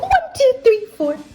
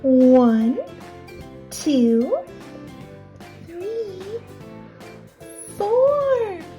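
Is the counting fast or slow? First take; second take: fast; slow. First: The counting is very fast. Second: The counting is slow.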